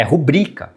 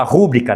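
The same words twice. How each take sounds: First: "rubrica" stressed on the middle syllable, ru-BRI-ca; tônica correta em rubrica. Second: "rúbrica" stressed on the first syllable, RU-bri-ca; tônica errada em rúbrica. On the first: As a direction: put the weight on BRI in "rubrica". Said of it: "É rubrica que se fala". ("rubrica" como paroxítona) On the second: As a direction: hit the RU of "rúbrica". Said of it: "aliás, fala rúbrica". ("rúbrica" como proparoxítona) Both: Shown as a demonstration.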